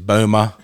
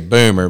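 First: The final R sound is dropped. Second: The final R sound is pronounced. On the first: This is how a non-American says it. "but she's Boomer" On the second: This is how Americans say it. "Americans say Boomer"

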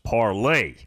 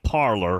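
First: The word ends with an 'ay' sound. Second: The word ends with an 'er' sound. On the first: The speaker calls it right. "it's pronounced Parlay" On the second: The speaker calls it wrong. "So it looks like parlor, which is what I was calling it"

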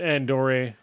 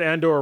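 First: The name is said fancily, like a cologne brand. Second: The name is said in a plain, ordinary way. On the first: The speaker calls it wrong. "he said Andore like it was a fucking cologne" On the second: The speaker calls it right. "he said Andor right the first time"

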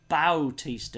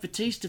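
First: The first syllable has an 'ow' vowel. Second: The first syllable has a plain 'a' vowel.

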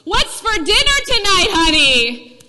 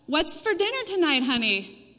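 First: It is said in a strong voice. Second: It is said in a quiet voice.

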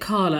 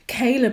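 First: The first vowel sounds like 'ar'. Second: The first vowel sounds like 'ay'. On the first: The speaker calls it wrong. "I pronounced it Carla, and I don't know if it's just because of my accent" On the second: The speaker calls it right. "as soon as the guy was like"

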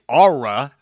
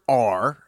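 First: The letter is said as two syllables, locally. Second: The letter is said as one plain syllable.

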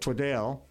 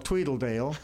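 First: The vowel of the last syllable is an E sound. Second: An extra L syllable is added in the middle. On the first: "replace the A with an E" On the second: "put an extra L"

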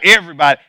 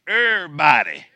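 First: The syllables are run together in a casual way. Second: Every syllable is pronounced fully and carefully. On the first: The speaker calls it wrong. "Not everybody" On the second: The speaker calls it right. "In my best English"

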